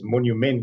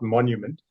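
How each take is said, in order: First: It is said with a non-English pronunciation. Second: It is said with the usual English pronunciation. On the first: "both Steve and I refer to it as monument ... it doesn't sound right in English" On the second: "not monument"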